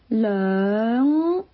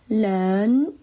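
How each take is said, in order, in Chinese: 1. 它收尾是后鼻音。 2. 它收尾是前鼻音，不带后鼻音。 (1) "但是真正的它是人" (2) "懒音"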